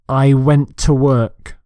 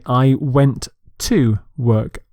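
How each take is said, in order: First: The words run together smoothly. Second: The words are said separately. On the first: The speaker calls it right. "I would say" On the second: The speaker calls it wrong. "Some people say"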